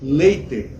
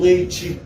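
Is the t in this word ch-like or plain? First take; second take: plain; ch-like. First: The t is a plain, clean t sound. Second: The t sounds like ch before the final vowel. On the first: The speaker calls it right. "é o T puro" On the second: The speaker calls it wrong. "se tivesse um C H junto. Tchê"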